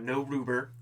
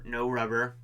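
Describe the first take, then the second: First: The first vowel is a long 'oo' sound. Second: The first vowel is a short 'uh' sound. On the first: It mocks the misspelled word as written. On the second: It is the word that was meant.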